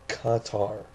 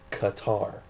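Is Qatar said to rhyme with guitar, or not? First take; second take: doesn't rhyme; rhymes. First: The word is said not rhyming with guitar. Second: The word is said to rhyme with guitar. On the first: The speaker calls it right. "but it's Qatar" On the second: The speaker calls it wrong. "like guitar"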